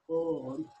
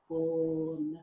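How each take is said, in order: First: Said in the usual way. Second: Born said higher with the or sound drawn out; stretched O sound. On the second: Shown as a demonstration. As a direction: lean on the vowel in born to show it. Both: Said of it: "Can you hear it".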